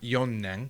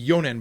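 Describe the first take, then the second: First: The middle n sound is long and doubled. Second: The middle n sound is short and single. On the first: The speaker calls it wrong. "not yonnen" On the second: The speaker calls it right. "It would be yonen"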